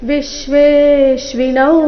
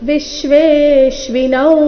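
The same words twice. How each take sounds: Both takes have the same delivery.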